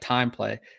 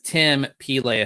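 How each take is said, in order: First: The name is said as 'time play'. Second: The name is said as 'Tim Pele'. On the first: The speaker calls it wrong. "it just looks like time play" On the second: The speaker calls it right. "but it's Tim Pele"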